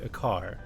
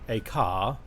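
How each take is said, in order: First: The final R in car is clearly pronounced. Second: The final R in car is not pronounced. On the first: "in American you would say a car" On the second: "The R is absent"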